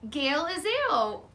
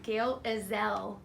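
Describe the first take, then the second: First: The name is said in a Southern accent. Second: The name is said in a plain accent.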